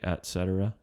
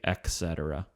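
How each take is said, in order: First: The first word is clearly said as et. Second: The first word is not said as et. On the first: The speaker calls it right. "Do say et cetera, et" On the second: The speaker calls it wrong. "Don't say"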